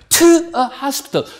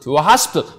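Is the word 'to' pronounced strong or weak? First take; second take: strong; weak. First: The word 'to' is pronounced strongly and clearly. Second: The word 'to' is weak and barely audible. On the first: The speaker calls it wrong. "to 그렇지 않아요" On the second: The speaker calls it right. "거의 들랑 말랑. ... 이렇게 간다고요"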